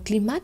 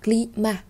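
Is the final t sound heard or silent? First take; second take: heard; silent. First: The final t sound is pronounced. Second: The final t sound is silent. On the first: The speaker calls it wrong. "chúng ta không đọc là climat" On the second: The speaker calls it right. "chúng ta sẽ không đọc nó lên"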